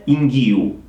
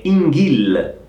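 First: "inghiu" with the l turned into a u; wrong Brazilian-style "inghiu". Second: "inghil" with a clear final l, slowly; teacher's correct "inghil". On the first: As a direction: show "inghiu" as the error. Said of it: "non è inghiu". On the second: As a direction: model "inghil" the right way. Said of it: "è inghil". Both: Shown as a demonstration.

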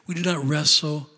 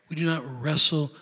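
No difference in how they are said.

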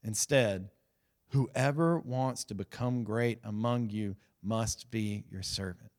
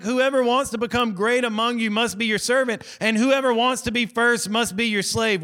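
First: Low, soft and slow, reading Jesus' words; solemn scripture reading. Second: A touch higher, repeating the verse in mock disbelief; mock dumbfounded disciples. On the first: Retold or imitated. Preacher reading Jesus' teaching to the congregation, hushed and slow. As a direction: let the verse land quietly and slowly. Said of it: "Watch this". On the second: Preacher voicing disciples stunned by Jesus' words, mock disbelief. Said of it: "they're dumbfounded now".

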